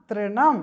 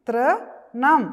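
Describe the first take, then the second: First: Said in the usual way. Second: Louder rising model of തൃണം; teacher models തൃണം for the children; loud model word. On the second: Shown as a demonstration. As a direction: say തൃണം loud and clear for the class. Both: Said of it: "പറഞ്ഞേ".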